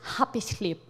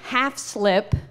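First: The first word sounds like 'happy'. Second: The first word sounds like 'half'. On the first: "my mom would pronounce it happy slip" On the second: "she meant half slip"

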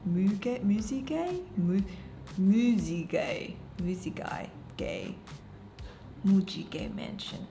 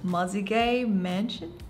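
First: The name is said with a Korean pronunciation. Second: The name is said with an English pronunciation.

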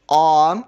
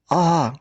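First: The vowel is said loudly. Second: The vowel is said more quietly. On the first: "Промовимо звук А голосно" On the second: "потім тихіше"

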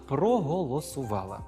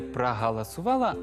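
First: The unstressed o vowels sound like a clear o. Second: The unstressed o vowels sound like a. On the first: The speaker calls it right. "а «проголосувала»" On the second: The speaker calls it wrong. "сказати не «проголосувала»"

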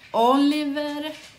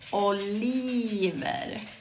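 First: The i vowel is short. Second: The i vowel is long. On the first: It is a boy's name. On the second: It means olives.

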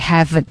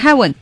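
First: The middle consonant is a v sound. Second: The middle consonant is a w sound. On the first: The speaker calls it right. "天堂也得heaven" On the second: The speaker calls it wrong. "不能heaven"

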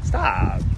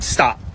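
First: The word is said in a gentle, polite way. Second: The word is said in a harsh, commanding way. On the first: It is a courteous request. "so much more polite than the red ones" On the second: It is a blunt order. "I feel like a red one's like"

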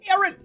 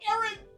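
First: It is shouted loudly. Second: It is said less loudly.

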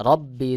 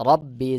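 No difference in how they are said.

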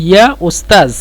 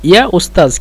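No difference in how they are said.

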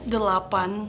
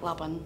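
First: All three syllables of the word are spoken. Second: The first syllable is dropped from the word. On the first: This is the standard form of the word. "it's delapan for 8" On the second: This is casual slang used in fast speech. "since it's like super fast, we just say like lapan"

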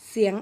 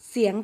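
No difference in how they are said.

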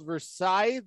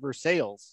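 First: It has the familiar, standard pronunciation. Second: It has the town's own local pronunciation. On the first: This is how the name is normally said. "They got a town called Versailles" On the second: This is how the locals insist on saying it. "that they insist on calling Versailles"

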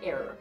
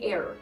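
First: It is said in an American accent, r sounded. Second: It is said in an American accent, r sounded.

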